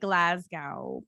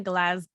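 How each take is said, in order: First: "Glasgow" said "GLAZ-gow", ending rhymes with cow; drawn-out American "Glasgow" with "gow" like cow. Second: "Glasgow" cut short as "GLAZ-g"; a quick, clipped "Glasgow" that drops the "gow"; better Glasgow. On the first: Retold or imitated. Showing her co-host the American way to say Glasgow, slowly. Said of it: "an American would probably say". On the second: Shown as a demonstration. Trying the version she knows is closer to right, clipped and short. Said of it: "But I know it's, like".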